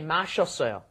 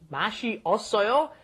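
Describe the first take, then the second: First: The vowels merge into one shorter syllable. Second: The vowels are said as separate syllables. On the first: "When it becomes uh, natural form, you say mashossoyo" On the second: "mashed together"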